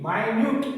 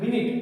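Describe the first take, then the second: First: The first syllable sounds like 'my'. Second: The first syllable sounds like 'min'. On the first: Very small or detailed. "માઇન્યુટ એમ બોલવામાં" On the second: A unit of sixty seconds. "આને મિનિટ બોલવામાં આવે છે"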